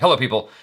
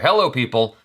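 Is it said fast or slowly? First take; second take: fast; slowly. First: It is said too fast. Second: It is said slower, with energy.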